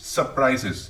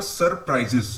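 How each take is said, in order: First: Surprises with a silent R, "suh-prises"; correct pronunciation. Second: Surprises with a rolled first R, "sur-prises"; wrong pronunciation. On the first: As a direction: drop the R in surprises. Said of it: "आर silent होता है". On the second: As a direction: sound the R in surprises. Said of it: "it's not surprises". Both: Shown as a demonstration.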